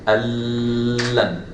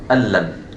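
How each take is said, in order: First: The merged sound is held too long. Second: The merged sound is held briefly, one beat. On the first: The speaker calls it wrong. "I don't say" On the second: The speaker calls it right. "I say"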